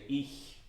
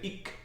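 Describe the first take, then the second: First: The ch is a soft hiss at the palate. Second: The ch is said as a hard k. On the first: The speaker calls it right. "You say ich" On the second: The speaker calls it wrong. "the C H in Italian is K. So you do not say ich"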